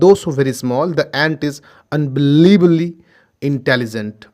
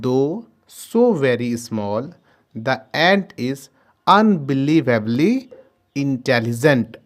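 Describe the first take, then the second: First: The sentence is read at a faster pace. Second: The sentence is read at a slower pace.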